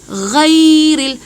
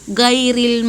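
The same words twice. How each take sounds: First: It starts with a throaty gh sound. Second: It starts with a plain hard g sound. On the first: The speaker calls it right. "Ito ay gha" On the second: The speaker calls it wrong. "Mali po yan siya sa Fatiha"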